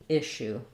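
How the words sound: The middle has a single sh sound. "American English"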